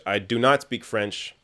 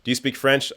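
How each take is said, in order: First: Slow, with not leaned on in "I do not speak French."; slow and deliberate, with the weight on not; stress on not. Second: Said in the usual way. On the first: Shown as a demonstration. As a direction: answer slowly and lean on not.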